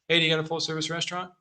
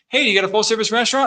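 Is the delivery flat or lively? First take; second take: flat; lively. First: It is said flatly, without tone or cadence. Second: It is said with lively tone and cadence. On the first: The speaker is just going through the motions. The speaker calls it wrong. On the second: The speaker is fully engaged with the person. The speaker calls it right.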